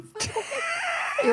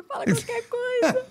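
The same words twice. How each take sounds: First: Much higher, slow tearful wail; half-mocking retold sobbing plea; crying plea. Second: High, slow tearful pleading; retold tearful begging; crying plea. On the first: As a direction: beg through tears, drawn out and high. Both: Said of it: "Eu chorava assim".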